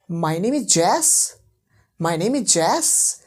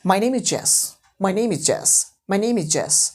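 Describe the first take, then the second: First: Slow, with "Jess" swung upward as a question; rising intonation. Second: "Jess" with a falling tone, as a statement; falling intonation. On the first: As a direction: stretch "Jess" and lift it into a question. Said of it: "falling का करके rising कर दूँ". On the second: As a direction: let the pitch drop on "Jess", stating a fact. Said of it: "अगर मैंने falling करा यहाँ पे". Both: Shown as a demonstration.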